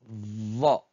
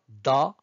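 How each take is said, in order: First: The consonant is the emphatic Arabic dad sound. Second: The consonant is a plain d sound. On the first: The speaker calls it right. "c'est plutôt va" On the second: The speaker calls it wrong. "Ce n'est pas da"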